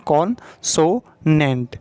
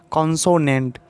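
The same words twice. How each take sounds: First: consonant drawn out very slowly in three parts; teacher spelling out consonant in three slow beats; slow syllable demo. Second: Said in the usual way. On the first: Shown as a demonstration. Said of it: "तीन part में बोल रहे हैं". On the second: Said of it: "तो तीन syllable इसमें बताया गया".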